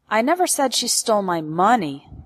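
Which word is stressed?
money. The word money carries the main stress. She stole something else, not money. "Implies that she stole something else from me, but it wasn't money"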